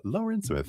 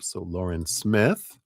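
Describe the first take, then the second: First: "Lauren Smith" in a bad French accent, pitched far up; hammed-up French accent on "Lauren Smith"; horrible French accent. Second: Said in the usual way. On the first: Shown as a demonstration. Reader greeting a donor in a horrible French accent. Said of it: "That's my, my horrible French accent". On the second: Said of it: "horrible French accent".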